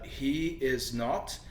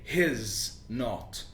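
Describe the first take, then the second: First: All three words are said in full. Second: The first two words join into one syllable.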